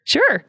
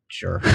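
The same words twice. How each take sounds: First: Sure pitched up high and bright; a cheery, rising sure. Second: Sure dropped low and soft; a flat, clipped sure; curt sure. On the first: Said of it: "it all depends on how you say it". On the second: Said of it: "when I say "sure". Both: Shown as a demonstration.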